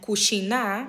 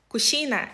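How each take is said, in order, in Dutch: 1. De laatste klinker is lang en beklemtoond. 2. De laatste klinker is kort en onbeklemtoond.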